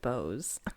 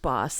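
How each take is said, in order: First: The vowel is long, like in 'nose'. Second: The vowel is short, like in 'moss'. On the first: The speaker calls it wrong. "everyone for some reason pronounce it Bose" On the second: The speaker calls it right. "my last name is pronounced Boss, like Hugo Boss"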